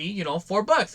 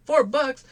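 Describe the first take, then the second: First: Said in the usual way. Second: High, loud disbelieving "Four bucks?"; incredulous buyer. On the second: Retold or imitated. Buyer balking at the seller's price, incredulous and high. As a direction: balk at the price like you can't believe it.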